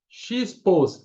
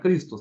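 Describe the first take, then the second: First: The word begins with a ks sound, like X. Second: The word begins with a plain k sound. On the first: The Greek letters are read as Portuguese letters. The speaker calls it wrong. "de forma portuguesada falando X pos" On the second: The Greek letters are read with their Greek values. The speaker calls it right. "só que não fala X-pos, fala Cristos"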